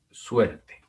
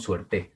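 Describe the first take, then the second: First: Suerte slowly, stressed on SUER; stress on first syllable. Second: Suerte wrongly stressed on final TE. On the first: Teacher correcting to what we say, suerte stressed on SUER. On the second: Teacher showing what we don't say, suerte stressed on TE. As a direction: push the stress onto TE in suerte. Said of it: "No decimos". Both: Shown as a demonstration.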